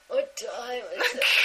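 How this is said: It is said in a sleepy, drowsy voice.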